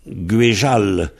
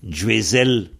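First: The middle consonant is a zh sound. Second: The middle consonant is a clear z sound. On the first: "le Z est devenu Je, dont on dit Guéjal" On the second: "On prononce bien le Z"

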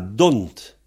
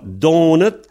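First: The word is reduced to a single syllable. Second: The word is said in full with two syllables. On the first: "se réduit à don't" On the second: "Donat se réduit à don't"

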